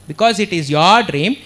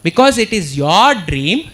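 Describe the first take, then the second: No difference in how they are said.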